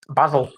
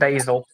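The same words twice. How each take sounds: First: It is pronounced the British way. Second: It is pronounced the American way. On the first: The speaker calls it right. "What do you call it?" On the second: The speaker calls it wrong. "It's really weird that Americans call it basil"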